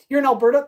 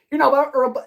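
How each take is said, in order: First: Said in the usual way. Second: Alberta tripped over and slurred, the r and t swallowed; fumbled Alberta. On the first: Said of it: "I can't even say that". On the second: Real, not acted. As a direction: stumble through Alberta, mangling it. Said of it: "oh, wow, I can't even say that".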